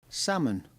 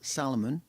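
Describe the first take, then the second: First: The l sound is not pronounced. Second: The l sound is pronounced. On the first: The speaker calls it right. "It's a silent L" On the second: The speaker calls it wrong.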